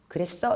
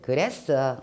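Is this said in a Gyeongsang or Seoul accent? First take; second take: Seoul; Gyeongsang. First: It is said in a Seoul-style accent. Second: It is said in a Gyeongsang accent.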